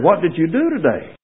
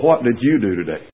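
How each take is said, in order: First: The question sounds warm and interested. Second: The question sounds harsh and accusing. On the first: The asker genuinely cares about the other person's day. The speaker calls it right. "You can say that in another way and make it altogether different" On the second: The asker suspects the other person did nothing useful. The speaker calls it wrong. "you can have a very long evening, husbands, when you come in and say"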